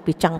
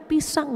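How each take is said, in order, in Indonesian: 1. Bunyi s dilafalkan menjadi bunyi seperti ch. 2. Bunyi s diucapkan dengan jelas dan normal. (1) "Kenapa huruf S-nya jadi ganti C gitu" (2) "Pisang ya pisang"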